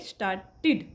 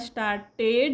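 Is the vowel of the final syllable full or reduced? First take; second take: reduced; full. First: The final syllable has a short in-between vowel. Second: The final syllable has a full, clear 'ed' vowel. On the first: The speaker calls it right. "असा मधला एक उच्चार करायचा असतो" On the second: The speaker calls it wrong. "पण actual तुम्हाला स्टार्टेड नाही म्हणायचं आहे"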